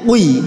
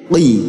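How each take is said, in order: First: The vowel starts while the lips are still rounded. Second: The lips spread back before the vowel sounds. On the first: The speaker calls it wrong. "Jangan keburu dikeluarkan sebelum ditarik. Nanti jadinya qi" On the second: The speaker calls it right. "kita tarik bibir ke belakang"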